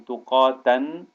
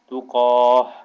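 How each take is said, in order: First: The word ends with a t sound and -an. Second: The word ends with a soft h sound. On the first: The reader does not stop on this word. "the word is actually tuqatan" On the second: The reader stops on this word. "because there's a stop sign there, you would say tuqah"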